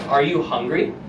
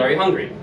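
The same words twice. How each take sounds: First: It is said slowly and deliberately. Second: It is said at a normal speed.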